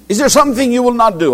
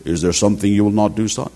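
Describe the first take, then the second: First: Big voice father. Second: Big Kerala father. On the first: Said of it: "a big voice. This is how he will speak". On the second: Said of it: "This is how he will speak". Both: Retold or imitated.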